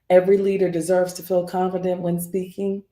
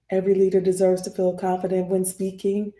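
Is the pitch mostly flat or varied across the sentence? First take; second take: flat; flat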